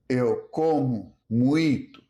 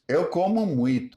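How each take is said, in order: First: "eu como muito" spaced out, final O said as U; O becomes U. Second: Said in the usual way. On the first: Shown as a demonstration. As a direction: separate the words of "eu como muito", "muito" ending in -tu. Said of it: "The O becomes U". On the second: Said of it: "often sounds closer to".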